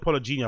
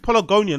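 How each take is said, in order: First: The middle syllable sounds like 'gen'. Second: The middle syllable sounds like 'gon'. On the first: The speaker calls it wrong. "not Polygenia" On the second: The speaker calls it right. "I think it's Polygonia"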